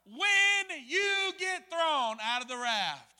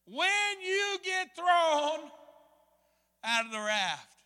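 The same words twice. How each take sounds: First: Echo in mind. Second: "When you get thrown" drawn out slow, high and loud, then "out of the raft" eases down; ringing echo. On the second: Preacher replaying the guide's warning as a loud, slow echo. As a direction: call it out like a memory ringing through the head. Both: Retold or imitated. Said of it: "I hear an echo in my mind".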